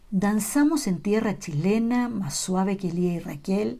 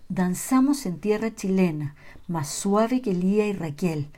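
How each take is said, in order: First: The verses flow on with only light pauses. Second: Each verse ends with a full stop-like pause. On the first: The speaker calls it right. "si lo leemos según la puntuación" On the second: The speaker calls it wrong. "por verso ... vas poniendo punto"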